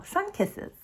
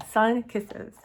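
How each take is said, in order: First: Sun kisses, sun lifted high and soft; stress on sun. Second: Said in the usual way. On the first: Shown as a demonstration. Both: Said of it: "These are kisses by the sun".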